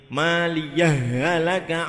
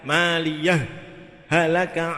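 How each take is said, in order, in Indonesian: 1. Kedua bunyi h menyatu menjadi satu bunyi ganda. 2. Ada jeda singkat yang memisahkan kedua bunyi h. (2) "dibaca idhar dengan saktah"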